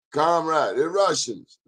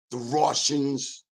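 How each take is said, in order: First: Higher mock Russian accent, Comrade; second try Russian accent. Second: Put-on slow, failed Russian accent on the Russians; a clumsy first stab at Russian; bad Russian accent. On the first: Host retries his Russian accent for listeners, still hammy. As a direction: another go at sounding Russian. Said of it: "I gotta work on that". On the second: Host tries a Russian accent on listeners, poorly done. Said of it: "That wasn't a good Russian accent".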